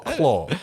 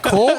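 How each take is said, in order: First: The vowel sounds like the one in claw. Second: The vowel sounds like the one in core. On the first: "Is it core or claw?" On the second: "Is it core or claw?"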